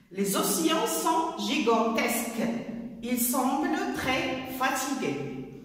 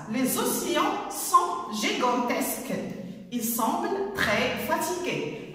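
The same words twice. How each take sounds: Both takes have the same delivery.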